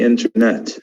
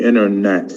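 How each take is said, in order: First: INTERNET with the first T clearly sounded; crisp T after the N in INTERNET; British-style INTERNET, T kept; British pronunciation. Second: INTERNET said as "innernet"; American-style INTERNET, first T dropped; American pronunciation. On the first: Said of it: "in England, they use". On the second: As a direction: skip the T after the N in INTERNET. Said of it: "but in America". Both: Shown as a demonstration.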